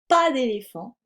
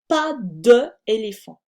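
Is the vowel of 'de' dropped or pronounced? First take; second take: dropped; pronounced. First: The vowel of de is dropped before éléphant. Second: The vowel of de is pronounced before éléphant. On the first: The speaker calls it right. "c'est plus joli de dire pas d'éléphant" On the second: The speaker calls it wrong. "plutôt de dire pas de éléphant"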